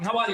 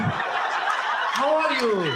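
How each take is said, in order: First: Put-on quick-fire Arab-accented greeting; fast Arab talk. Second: Very drawn-out, drowsy Iranian greeting; slow Iranian talk. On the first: Comedian mimics fast-talking Arabs on cocaine, rapid-fire. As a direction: rattle it off in one breath. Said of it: "Arab talk a lot faster". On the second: Acted. Comedian mimics slow-talking Iranians greeting someone, drawled out. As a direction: stretch every word as if half asleep. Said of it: "they talk a lot slower".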